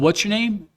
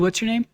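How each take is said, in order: First: It is asked in a rude, hostile way. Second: It is asked in a casual, offhand way. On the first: The asker is being disrespectful. "he was an asshole about it" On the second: It is just a habitual way of asking. "that's the way he just"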